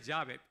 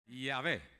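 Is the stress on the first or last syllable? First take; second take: first; last. First: The stress is on the first syllable. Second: The stress is on the last syllable. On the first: The speaker calls it wrong. "no digan llave... mantenga el acento donde va" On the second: The speaker calls it right. "En español se quedó igual"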